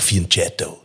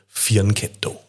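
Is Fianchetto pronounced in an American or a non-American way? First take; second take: American; non-American. First: The word is said with an American pronunciation. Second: The word is said without an American pronunciation.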